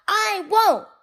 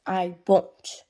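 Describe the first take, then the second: First: High, loud "I won't!"; raised, bratty yell; defiant shout. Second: Said in the usual way. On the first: A narrator's reading. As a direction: shout the refusal like a naughty child. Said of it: "Pig Won't shouts out". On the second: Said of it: "Pig Won't always says".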